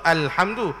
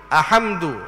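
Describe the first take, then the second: First: The l sound is pronounced clearly. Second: The l sound is left out. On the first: The speaker calls it right. "wajib diizharkan, yakni nyata sebutannya" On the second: The speaker calls it wrong. "Kalau kita tidak nyatakan lam tu ... jadi ahamdu salah"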